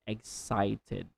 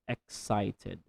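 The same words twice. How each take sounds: The two takes are said the same way.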